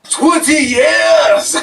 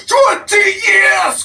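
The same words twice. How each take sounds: First: Furious shout. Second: Even higher, slow, full-volume roar; furious shout. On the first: Wrestler raging at the interviewer, slow furious shout. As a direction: stretch it out slowly, much higher and louder. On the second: Wrestler repeating his grievance, higher furious shout. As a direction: scream it, the anger peaking. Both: Acted.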